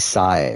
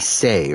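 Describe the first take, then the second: First: The name has the vowel of 'sigh'. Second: The name has the vowel of 'say'. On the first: This is how it is meant to be said. The speaker calls it right. "it's like supposed to be Sai" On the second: This is how the English dub says it. The speaker calls it wrong. "in the dub they say Sei"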